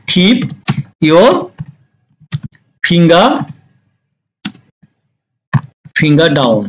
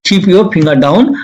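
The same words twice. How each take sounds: First: Long pauses between words; halting, spaced-out model phrase. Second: Said in the usual way. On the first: Shown as a demonstration. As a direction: dictate it piece by piece for learners. Teacher dictates phrase word by word.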